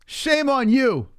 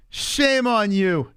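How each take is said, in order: First: High, slow mock scolding; high, drawn-out sarcastic shame. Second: Slow, high drawn-out scolding; slow sarcastic shame on you; mock scolding. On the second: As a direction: stretch every word sarcastically.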